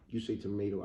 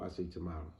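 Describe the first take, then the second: First: "tomato" with a long "ay" in the middle. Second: "tomato" with an open "ah" in the middle. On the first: Quoting the familiar saying to viewers, "tomato" as "to-MAY-to". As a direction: say "tomato" as "to-MAY-to", tossed off quickly. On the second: Quoting the familiar saying to viewers, "tomato" as "to-MAH-to". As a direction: say "tomato" as "to-MAH-to", soft and low. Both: Shown as a demonstration.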